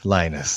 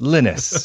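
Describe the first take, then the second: First: The name is said with an English pronunciation. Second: The name is said with a Norwegian pronunciation. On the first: This is how it is said locally. "not Linus like it is over here" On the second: This is how it is said in the name's home country. "he's Norwegian, and it's it's pronounced Linus over there"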